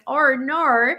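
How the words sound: It is said in a mock Australian accent.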